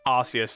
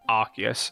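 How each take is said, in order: First: The first syllable sounds like "arse". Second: The first syllable sounds like "ark". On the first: The speaker calls it right. "apparently the correct way to say it is Arceus" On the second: The speaker calls it wrong. "that's how I would spell Arc, is A R C"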